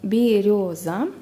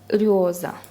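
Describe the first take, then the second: First: The first vowel is a full, clear e. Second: The first vowel is reduced toward i. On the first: "пишется вот так" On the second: "Обычные люди так произносят это слово"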